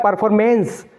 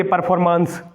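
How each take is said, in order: First: परफॉर्मेंस ending in "mens", with an "e" vowel; correct pronunciation. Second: परफॉर्मेंस ending in long "maans"; mistaken pronunciation. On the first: Teacher gives students the proper form, परफॉर्मेंस ending "mens". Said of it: "ये होता है परफॉर्मेंस". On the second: Teacher challenges students with the false analogy, परफॉर्मेंस ending "maans". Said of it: "क्यों नहीं बोलते परफॉर्मेंस". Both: Shown as a demonstration.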